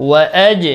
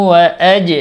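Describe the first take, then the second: Both takes have the same delivery.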